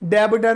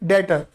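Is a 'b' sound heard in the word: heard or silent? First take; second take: heard; silent. First: A 'b' sound is pronounced in the middle. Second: The 'b' is silent, with no 'b' sound. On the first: The speaker calls it wrong. "डेबिटर नहीं" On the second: The speaker calls it right. "बी silent कर"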